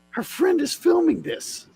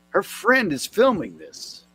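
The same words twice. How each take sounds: First: High-pitched disbelief. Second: Said in the usual way. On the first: Real, not acted. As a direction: repeat it much higher, incredulous. Repeats line in disbelief.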